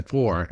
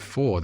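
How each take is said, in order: First: "four" with an American hard R; American accent. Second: Said in the usual way. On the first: Shown as a demonstration. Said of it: "So I had to say four". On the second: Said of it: "certain words that if you say and you don't adjust them".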